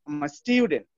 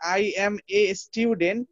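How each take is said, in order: First: 'I am a' is squeezed into one short syllable. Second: Every word is said fully and separately. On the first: "এই যে আমাকে এত ছোট করে ফেলছে দেখেন"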